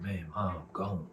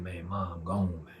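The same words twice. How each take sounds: First: Repeating bad news. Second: Breaking bad news. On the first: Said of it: "He said". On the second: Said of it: "Say that again".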